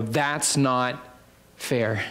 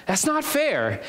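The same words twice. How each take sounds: First: Very slow, low protest; understated complaint. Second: High-pitched mock complaint; childish protest. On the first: Acted. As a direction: draw out a low, measured objection. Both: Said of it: "they would obviously say".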